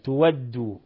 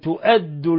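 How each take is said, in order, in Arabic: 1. يحل صوت w محل الهمزة. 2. تُسمع همزة بعد المقطع الأول. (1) "فيقرأها بالإبدال" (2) "وقرأ الباقون بالهمز"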